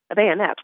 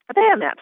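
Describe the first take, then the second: First: A touch louder, matter-of-fact "A bayonet"; helpful patient. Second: "A bayonet" much higher and louder, shocked; exclaimed. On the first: Wounded patient helpfully names the weapon, plain and helpful. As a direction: offer "A bayonet" helpfully, just informing. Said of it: "put in the patient helpfully". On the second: Claire, shocked by the patient's wound, exclaims in alarm. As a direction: gasp out "A bayonet" in alarmed disbelief. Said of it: "I exclaimed". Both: A narrator's reading.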